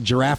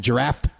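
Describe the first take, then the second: First: The word ends without a T sound. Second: The word ends with an added T sound. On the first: "sometimes I won't say giraffe" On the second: "I'll put a T on the end"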